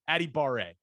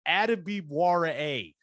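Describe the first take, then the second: First: No W sound is pronounced in the name. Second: A W sound is pronounced in the name. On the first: The speaker calls it right. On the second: The speaker calls it wrong.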